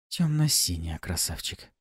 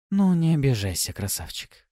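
First: Whispered seductive correction; breathy purring seductress. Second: Coaxing, fading to a purr; breathy purring seductress. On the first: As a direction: breathe it like a temptress. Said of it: "В тон мне отозвалась Пафи". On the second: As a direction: soothe him, then purr. Succubus teasing her lover. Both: A narrator's reading.

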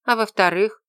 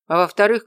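First: Raised, questioning «А во-вторых?»; questioning tune. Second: Louder, emphatic «А во-вторых,» opening an answer; answering lead-in. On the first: She prompts him for his second reason, questioning. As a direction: say «А во-вторых?» higher, ending on a rise. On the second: He takes up her question, answering firmly. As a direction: say «А во-вторых,» firmly, voice raised and leading on. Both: A narrator's reading.

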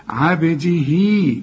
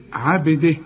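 First: عبده drawn out to "abdihii"; joined form. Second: عبده cut to "abdih"; stopping form. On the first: Teacher shows reading on without stopping, joined form. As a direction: bounce the ب and lengthen the final hii of عبده. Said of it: "إذا وصلت". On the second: Teacher shows pausing on the word, stopping form. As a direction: end عبده on a bare h, no long vowel. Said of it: "إذا وقفت". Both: Shown as a demonstration.

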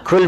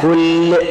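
First: كل cut short on a single unvowelled l; sukun on كل. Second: كل drawn out slowly with a doubled l; shadda on كل. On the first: Teacher showing students the eating command, كل with sukun. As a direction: say كل as "kul", the command to eat. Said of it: "كل بالسكون أمر بالأكل". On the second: Teacher showing students the word for "every", كل with doubled lam. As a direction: say كل as "kullu", holding the l. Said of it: "اللام المشددة". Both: Shown as a demonstration.

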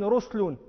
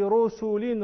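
First: رسل said "RUS-lun", no vowel after the s; lightened with sukun. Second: رسل said slowly "RU-SU-lin", u after the s; full vowel. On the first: Teacher giving an example, رسل lightened to "ruslun". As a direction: close the first syllable of رسل on s. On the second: Teacher giving an example, رسل in full as "rusulin". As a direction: draw out both u vowels in رسل. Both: Shown as a demonstration. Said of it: "تخفف الحركة بالسكون".

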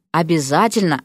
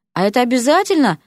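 First: Curt, final answer; cutting reply. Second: Higher, reluctant question; exhaled plea. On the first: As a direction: cut off any argument with it. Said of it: "отрезал Кристофер". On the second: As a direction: ask it with a pleading lift. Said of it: "выдохнул Эрик". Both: A narrator's reading.

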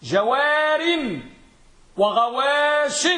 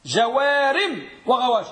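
First: جوار and غواش drawn out very slowly and a bit higher; deliberate teacher's model reading; slow emphatic demo. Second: Said in the usual way. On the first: Shown as a demonstration. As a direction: stretch جوار and وغواش so the class hears the tanwin. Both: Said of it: "فماذا نقول؟".

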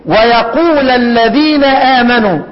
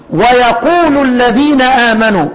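First: Slow recitation, ويقول ending in a short "a": wa-yaqula; nasb reading. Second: Slow recitation, ويقول ending in "u": wa-yaqulu; raf' reading. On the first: Teacher shows students Abu Amr's reading, ويقول ending in "a". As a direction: join ويقول to the next word with a fatha. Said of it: "من قرأ بالواو والنصب". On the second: Teacher shows students the Kufan reading, ويقول ending in "u". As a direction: join ويقول to the next word with a damma. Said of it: "ومن قرأ بالواو والرفع". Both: Shown as a demonstration.

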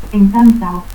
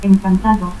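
First: Encantao without its D; dropped D. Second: Said in the usual way. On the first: Shown as a demonstration. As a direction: end in "-ao": Encantao. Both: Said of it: "pérdida de la D intervocal".

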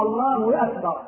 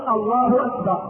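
First: "Allaahu-wakbar", hamza lost to a w; wrong takbir. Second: "أكبر" begun with a clean hamza; correct takbir. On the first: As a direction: glide from "الله" into "أكبر" with a w. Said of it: "والخطأ قوله". (تكبير خاطئ بإدخال واو) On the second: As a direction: say "الله أكبر" with no w between. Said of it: "الصواب أن يقول". (تكبير صحيح بلا واو) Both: Shown as a demonstration.

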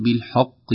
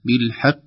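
First: "بالحق" with the ح wrongly thickened; "بالحق" said with a heavy, rounded "ḥo". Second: "بالحق" with a thin, light ح; careful "بالحق" without thickening the ح. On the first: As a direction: darken the vowel after ح in "بالحق". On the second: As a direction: keep the vowel after ح in "بالحق" a clear front "ḥa". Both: Shown as a demonstration. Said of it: "لابد من ترقيق الحاء".

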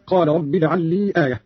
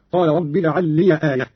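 First: Said in the usual way. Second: "لي" opened into liya; short a added after "لي"; fatha on ya. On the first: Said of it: "قرأ قالون بفتح الياء". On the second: Shown as a demonstration. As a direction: say "لي" as two syllables, li-ya, before "آية". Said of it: "قرأ قالون بفتح الياء هكذا".

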